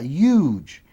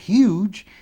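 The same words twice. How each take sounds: First: The word begins without any H sound. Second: The word begins with an audible H sound. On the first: "tem região dos Estados Unidos que ele não pronuncia o H" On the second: "ao invés de ser huge"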